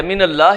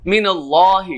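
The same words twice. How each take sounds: First: من اللہ with a light, thin lam in اللہ. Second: من اللہ with a full, heavy lam in اللہ. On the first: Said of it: "باریک ادا کر دیا". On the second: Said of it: "پر کرنا تھا ہم نے". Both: Shown as a demonstration.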